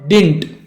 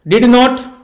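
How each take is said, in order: First: One clipped word with a single syllable. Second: Two separate full words with a clear t. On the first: "या सिर्फ डिंट कहो तो भी" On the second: "डिड नॉट कहो तो भी"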